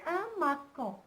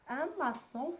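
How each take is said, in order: First: The middle consonant is a hard k sound. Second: The middle consonant is a soft s sound. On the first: The word is read without the cedilla. The speaker calls it wrong. "Si j'enlève la C D, elle va se prononcer" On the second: The word is read with the cedilla. The speaker calls it right. "Mais on voudrait la prononcer"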